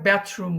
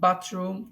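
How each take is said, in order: First: The first vowel sounds like 'a' in cat. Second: The first vowel is an open 'ah' sound.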